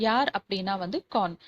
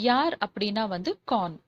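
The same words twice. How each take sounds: Both takes have the same delivery.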